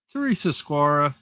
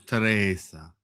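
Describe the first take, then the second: First: Said in the usual way. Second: "Teresa" said Spanish-style as teh-REH-sa; "Teresa" with a tapped r and open vowels, the way Carlos says it; Carlos's way of saying it. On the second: Retold or imitated. Greeting a chat viewer by name as Carlos would, with a Spanish-style "Teresa". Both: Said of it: "Or as Carlos says".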